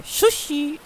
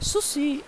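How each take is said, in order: First: High-pitched Japanese-style sushi with "sh" at the start; Japanese accent. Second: High-pitched Japanese-style Sushi with a plain s; Japanese accent. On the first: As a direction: correct it to shu-shi in a high Japanese accent. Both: Shown as a demonstration. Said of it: "logat bahasa Jepangnya apa?".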